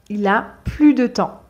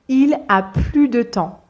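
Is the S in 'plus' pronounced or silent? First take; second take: silent; silent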